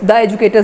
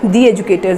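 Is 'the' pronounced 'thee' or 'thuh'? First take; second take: thuh; thee. First: The word 'the' is said as 'thuh'. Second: The word 'the' is said as 'thee'. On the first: The speaker calls it wrong. "द educators नहीं है ना" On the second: The speaker calls it right. "दी educators है"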